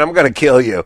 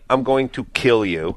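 First: It is said in a light, playful tone. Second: It is said in a serious, menacing tone. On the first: The threat is not meant and is harmless. "then it doesn't mean anything" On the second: The threat sounds meant and is offensive. "then that is very offensive"

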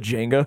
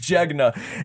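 First: The n sound comes before the g. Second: The n sound comes after the g. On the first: The speaker calls it wrong. "I've been saying it wrong for the longest time, but I always said" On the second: The speaker calls it right.

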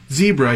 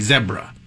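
First: It is said with an American pronunciation. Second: It is said with a British pronunciation. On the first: "instead of saying zebra" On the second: "the way that a, you know, like a British person would say"

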